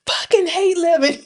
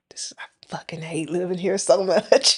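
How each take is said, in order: First: High-pitched mock yell, breaking into a laugh; retold yell. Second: Low, whispery retold grumble; defeated mutter. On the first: Woman retelling her driveway outburst, mock yelled. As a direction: imitate yelling it out, pitched way up. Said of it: "I literally yelled it". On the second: Retelling her fall while shoveling, whispery grumble. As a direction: grumble it almost without voice after a sigh. Retelling after slipping and falling.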